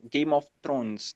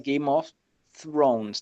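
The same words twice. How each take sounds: First: Thrones begins with a plain hard t. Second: Thrones begins with a soft dental th. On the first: "no inglês indiano não tem. Então eles acabam falando Thrones mesmo" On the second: "a pronúncia no inglês original é"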